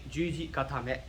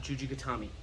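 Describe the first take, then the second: First: "Juji gatame" even, ending in "meh"; correct pronunciation. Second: "Juji gatami" as soft "guh-TAH-mee"; wrong pronunciation. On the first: Teacher saying what it's actually called, correct Japanese pronunciation. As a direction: finish "gatame" on a short "eh". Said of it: "it's actually". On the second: Teacher showing what it's not, Englishized mispronunciation. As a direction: end "gatami" on "ee", stress on TAH. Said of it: "not Juji gatami". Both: Shown as a demonstration.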